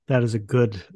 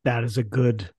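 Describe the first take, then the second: No difference in how they are said.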